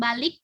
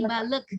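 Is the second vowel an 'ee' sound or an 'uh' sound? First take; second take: ee; uh. First: The second vowel is a clear 'ee' sound. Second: The second vowel is a short 'uh' sound. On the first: The speaker calls it wrong. "bukan balik" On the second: The speaker calls it right. "tapi balık. Karena ini e bukan i"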